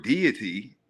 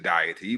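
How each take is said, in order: First: "deity" said DEE-ih-tee; usual pronunciation. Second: "deity" said DAY-ih-tee or DIE-ih-tee; accented pronunciation. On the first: Man giving the word as usually heard, "deity" as DEE-ih-tee. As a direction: say "deity" with a first syllable like "dee". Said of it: "you might hear the word deity". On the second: Man allowing for an accent, "deity" as DIE-ih-tee. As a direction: open the first syllable of "deity" toward "die". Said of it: "if you got an accent, you might pronounce it". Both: Shown as a demonstration.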